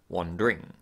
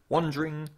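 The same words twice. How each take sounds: First: The schwa is kept and the d stays d. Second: The schwa is dropped and the d sounds like j. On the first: "rather than wandering" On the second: "I not only drop the schwa in wandering, but the d morphs into a j"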